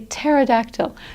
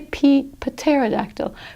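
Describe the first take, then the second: First: The word starts with a T sound, P silent. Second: The word starts with an audible P sound. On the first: The speaker calls it right. "We say pterodactyl because a P T, just the T is pronounced" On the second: The speaker calls it wrong. "We don't say P pterodactyl"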